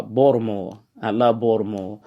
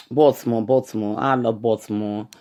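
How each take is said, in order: First: Local Baltimore accent, "Baltimore" run together as "Bawd-a-more". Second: New York "Baltimore" with a clear T; New York accent. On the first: Shown as a demonstration. Podcaster corrects himself for y'all, in Baltimore accent. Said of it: "the Baltimore accent". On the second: Real, not acted. Podcaster tells listeners he loves the city, New York accent. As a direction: say Baltimore like a New Yorker, T sounded. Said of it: "saying it with the New York accent".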